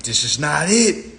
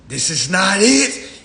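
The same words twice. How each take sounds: First: Said in the usual way. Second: Higher, louder and slow this time; emphatic repeat. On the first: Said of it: "I was like". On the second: Shown as a demonstration. Repeating it to the crowd, higher and louder. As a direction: say "This is not it." slowly with weight on "it".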